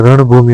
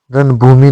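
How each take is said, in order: First: रणभूमि with retroflex ण; correct nasal. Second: रणभूमि with a dental n; wrong nasal. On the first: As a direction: curl the tongue for ण in रणभूमि. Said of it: "होता है". (रणभूमि में शुद्ध ण) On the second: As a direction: say रणभूमि as "ranbhumi". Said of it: "नहीं होता है". (रणभूमि में न की ध्वनि) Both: Shown as a demonstration.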